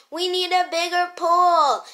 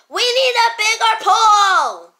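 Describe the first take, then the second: First: Loud, raised complaint, short of a full yell; toned-down yell. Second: Full-force, high yell with a long last word. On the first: Yeller saying sorry, repeating it in a toned-down yell. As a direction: still loud, but rein the yell in. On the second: Friend crammed in a small pool, yelling. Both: Acted. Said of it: "Stop yelling!".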